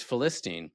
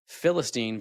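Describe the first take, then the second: First: Put-on Philistine said fi-LIS-teen; stress on second syllable. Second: Philistine said FIL-i-steen; stress on first syllable. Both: Shown as a demonstration. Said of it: "put the emphasis on the wrong syllable".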